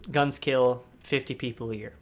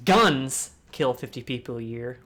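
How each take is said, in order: First: Guns hit at the start; stress on guns. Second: Guns punched, slower and louder; slow down and lean on Guns; stress on guns. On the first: Showing the audience how stress changes meaning, stress on Guns. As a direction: open hard on Guns. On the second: Second emphasis example for the audience, Guns stressed. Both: Shown as a demonstration. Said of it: "If you put emphasis on certain words".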